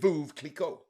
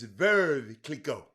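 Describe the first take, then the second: First: The name has an Americanized pronunciation. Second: The name has a French pronunciation. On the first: This is what people call it at home. "Over here, we call it" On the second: This is what people call it in France. "Over there is"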